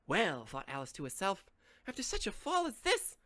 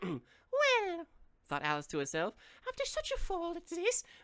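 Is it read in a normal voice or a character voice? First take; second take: normal voice; character voice. First: It is read in his normal voice. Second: It is read in a put-on Alice voice.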